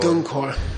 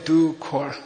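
First: An n sound comes before the k. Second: No n sound comes before the k. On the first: The speaker calls it right. "you have to say Dunkor" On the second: The speaker calls it wrong. "You don't say Dukor"

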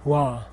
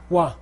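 First: It is said on a low tone. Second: It is said on a high tone. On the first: "They're all low tone" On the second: "they get high"

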